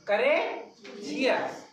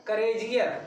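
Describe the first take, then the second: First: courageous very slow, with a pause after करे; broken in two. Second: Said in the usual way. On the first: Shown as a demonstration. Teacher shows the class two syllables, courageous slowly broken in two. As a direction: stretch courageous into two parts, करे and Jesus. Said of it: "दो बार भी बोल पा रहे हैं हम". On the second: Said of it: "दो बार भी बोल पा रहे हैं".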